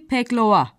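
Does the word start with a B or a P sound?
P. The word starts with P and has E, O vowels. This is how the local dialect says it. "orada deniliyor ki peklova"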